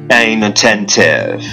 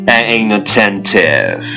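Both takes have the same delivery.

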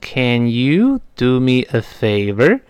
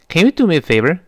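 First: Slowly spoken, with a full vowel in can. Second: Normal speed, with a weakened vowel in can. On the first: "我刚才在慢速跟读的时候读成Can you do me a favor？是这么一个声音啊" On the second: "你看我这么读 Can you can 就弱化成了can"

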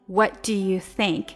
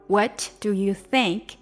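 The two takes are said the same way.

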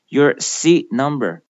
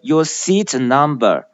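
First: The t in seat stops without release. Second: The t in seat is fully released. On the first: The speaker calls it right. "突然止住，突然停住" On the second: The speaker calls it wrong. "而不要把它读成your seat number"

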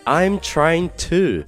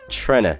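First: Each word is pronounced fully and separately. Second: The words are squeezed into one short word. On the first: "我把第二句话中的I'm trying to" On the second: "变成了tryna，那这个是很口语化的一种表达"

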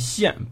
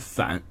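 First: The syllable is read as xian. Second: The syllable is read as san. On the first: The speaker calls it right. "记住这字念霰" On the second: The speaker calls it wrong. "不念散"

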